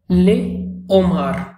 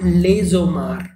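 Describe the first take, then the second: First: The s is silent, with no z linking. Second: A z sound links into the noun. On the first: The speaker calls it right. "a liaison is not formed" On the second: The speaker calls it wrong.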